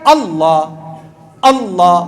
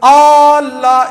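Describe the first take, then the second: First: اللہ with a short, clean first A and lower pitch; correct short alif. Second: اللہ with the first A held far too long; wrong long alif. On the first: Teacher modelling the correct short alif for listeners. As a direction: say اللہ crisply without stretching the alif. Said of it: "صحیح کیا ہے؟". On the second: Teacher showing the congregation the mistaken drawn alif. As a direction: hold the opening alif of اللہ, wrong on purpose. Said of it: "یہ غلط ہے۔". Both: Shown as a demonstration.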